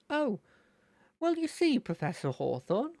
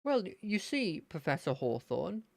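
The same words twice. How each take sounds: First: Much higher eager lad, dropping on the name; excited high character voice; Terry. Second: Terry. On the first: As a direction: launch high from an "Oh". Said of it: "trigger sort of phrase is gonna be". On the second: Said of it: "to get me into his voice". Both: Acted.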